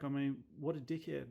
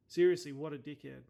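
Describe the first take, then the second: First: Said in the usual way. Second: "Seriously" punched out louder in real annoyance; louder real exasperation. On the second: Real, not acted. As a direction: lean in and say it louder the second time. Repeats insult, second louder.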